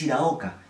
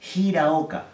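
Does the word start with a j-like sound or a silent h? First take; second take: silent h; j-like. First: The word begins directly with the vowel, h silent. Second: The word begins with a raspy j-like sound. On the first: The speaker calls it wrong. "no es Hiraoka" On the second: The speaker calls it right. "es Hiraoka"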